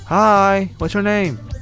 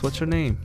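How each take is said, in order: First: It is said at a louder volume. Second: It is said at a quieter volume.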